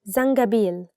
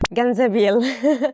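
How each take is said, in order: First: The word begins with a z sound. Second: The word begins with a g sound. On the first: The speaker calls it right. "it's zangabil" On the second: The speaker calls it wrong. "people mistake it for ganzabil. So please don't make this mistake"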